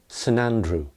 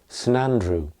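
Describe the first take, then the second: First: The word saint is reduced to a weak syllable. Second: The same.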